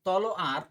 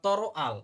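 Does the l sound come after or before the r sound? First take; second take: before; after. First: The l sound comes before the r sound. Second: The l sound comes after the r sound. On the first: "এক সময় আপনি ল আগে উচ্চারণ করছেন" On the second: "আরেক সময় আপনি ল কে পরে উচ্চারণ করছেন"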